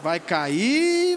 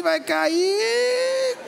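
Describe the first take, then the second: First: Lower, knowing mutter; low muttered warning. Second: Higher, sing-song drawn-out taunt; sing-song tease. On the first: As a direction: mutter it to yourself as he slips. (murmúrio grave e conformado) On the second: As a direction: sing it up as he goes over. (cantarolado agudo e zombeteiro) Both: Retold or imitated. Onlooker watching friend fall.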